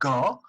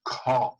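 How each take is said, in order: First: The consonant has no puff of air. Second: The consonant has a puff of air. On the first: The speaker calls it wrong. "It is not ga" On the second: The speaker calls it right. "it is gha"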